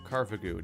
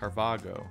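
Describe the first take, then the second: First: The last syllable has its expected vowel. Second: The last syllable has an altered vowel. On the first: The speaker calls it right. "it's pronounced Carvago" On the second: The speaker calls it wrong. "messing up the vowel on the last syllable"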